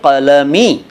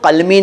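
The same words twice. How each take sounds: First: The word is split as kalam plus ee. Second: The word is split as kal plus mi. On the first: The speaker calls it right. "बल्कि कलमी" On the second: The speaker calls it wrong. "कलमी नहीं"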